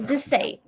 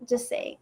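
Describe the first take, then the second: First: Said in the usual way. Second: Whispered to herself. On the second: Real, not acted. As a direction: breathe it out as a private nudge. Repeats it to herself.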